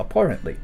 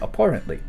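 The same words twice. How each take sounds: First: The middle syllable sounds like 'poor'. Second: The same.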